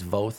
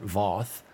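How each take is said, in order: First: The vowel rhymes with 'both'. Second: The vowel does not rhyme with 'both'. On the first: The speaker calls it right. "it is Voth, ... It's just like both with a V" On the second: The speaker calls it wrong. "not Voth"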